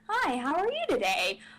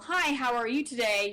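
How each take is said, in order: First: It is said in an inquisitive, curious tone. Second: It is said in a plain neutral tone.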